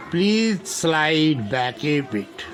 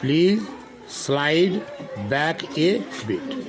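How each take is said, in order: First: Slow teaching read. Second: Each word set apart with pauses, the last words very slow. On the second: Teacher breaks the sentence into single words for children. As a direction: spell it out slowly for the class, one word at a time. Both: Shown as a demonstration. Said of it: "इसको बोलते हैं".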